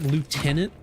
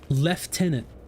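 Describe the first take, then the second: First: It is said with no F sound. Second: It is said with an F sound. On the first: The speaker calls it right. "there's not a single F in there" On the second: The speaker calls it wrong. "But they say lieutenant"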